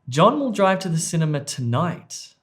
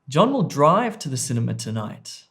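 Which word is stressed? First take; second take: tonight; drive. First: The stress falls on the word 'tonight'. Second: The stress falls on the word 'drive'. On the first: "The emphasis or stress was on E" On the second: "I've put word stress or emphasis on C, drive"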